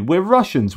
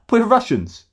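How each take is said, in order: First: Higher, lightly indignant; a hint of a put-upon Russian visitor; mock Russian tourist. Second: Much higher, put-on whiny voice; exaggerated high whine of a wronged holidaymaker; mocking whiny tourist. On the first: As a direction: protest the point as the wronged tourist. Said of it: "if you're gonna say".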